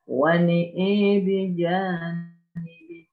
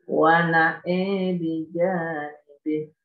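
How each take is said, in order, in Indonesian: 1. Kedua vokal pada na'a condong ke e. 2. Hanya vokal kedua yang condong ke e. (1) "Membaca imalah nun dan hamzah di dua tempat" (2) "Membaca imal hamzah saja"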